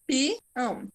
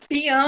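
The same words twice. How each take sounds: First: "Peão" split into pi, then ão; syllables separated. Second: "Peão" run together in one quick go; said all together. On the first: Teacher showing the class the hiatus, syllables separated. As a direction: break "Peão" after the pi, softly. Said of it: "o pi se separa automaticamente do ão". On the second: Teacher testing the word with a pupil, said all together. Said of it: "Tudo junto?". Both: Shown as a demonstration.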